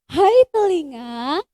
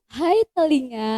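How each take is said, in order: First: It is said with more energy. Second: It is said with little energy.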